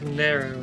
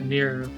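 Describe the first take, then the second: First: The name sounds like the word narrow. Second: The name sounds like the name Nero. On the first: The speaker calls it right. "it is narrow" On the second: The speaker calls it wrong. "not Nero"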